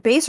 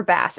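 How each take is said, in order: First: Bass said like "base"; "Bass" pronounced as in bass guitar; long-A pronunciation. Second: Bass said with a short A, like the fish; "Bass" with the vowel of "cat"; short-A pronunciation. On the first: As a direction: say "Bass" with a long A, rhyming with "face". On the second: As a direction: say "Bass" to rhyme with "mass". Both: Shown as a demonstration. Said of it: "It's one of them".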